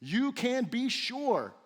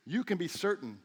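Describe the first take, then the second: First: Higher, slowed "you can be sure", stress on "you", falling end; emphatic, drawn-out "you can be sure"; certain emphasis. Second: Said in the usual way. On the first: Shown as a demonstration. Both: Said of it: "here's the certainty again".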